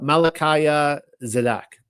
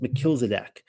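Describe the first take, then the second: First: The name is said in a Hebrew-sounding way. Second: The name is said in a plain English way.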